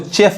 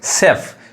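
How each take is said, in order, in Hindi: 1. यह शब्द ch ध्वनि से शुरू होता है। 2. यह शब्द sh ध्वनि से शुरू होता है।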